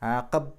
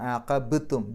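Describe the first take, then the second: First: The b is said softly without a clear bounce. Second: The b is released with a clear audible bounce. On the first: The speaker calls it wrong. "ആഖബ്തു എന്ന് പറഞ്ഞാൽ പോരാ" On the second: The speaker calls it right. "ബ് എന്നുള്ളത് പുറത്തേക്ക് കേൾക്കണം"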